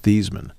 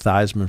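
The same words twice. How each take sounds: First: The name does not rhyme with Heisman. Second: The name rhymes with Heisman. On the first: This is the family's original version of the name. "the actual name pronunciation of his name is Theismann" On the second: This is the adopted public version of the name. "we could go with Theismann for the Heisman if we go with that pronunciation"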